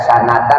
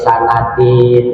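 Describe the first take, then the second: First: The word ends with the sound an. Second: The word ends with the sound in. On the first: The speaker calls it right. "dibaca sanatan" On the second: The speaker calls it wrong. "nggak boleh sanatin"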